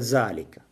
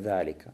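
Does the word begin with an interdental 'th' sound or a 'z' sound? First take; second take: z; interdental. First: The first consonant is a plain z sound. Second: The first consonant is an interdental th sound. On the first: The speaker calls it wrong. "«Ве» межзубную произносят как «з»" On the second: The speaker calls it right. "межзубная"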